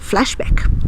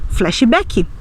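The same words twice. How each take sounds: First: It is said with an English pronunciation. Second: It is said with a Brazilian Portuguese pronunciation. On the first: "em lugar de dizer" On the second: "nós vamos dizer também"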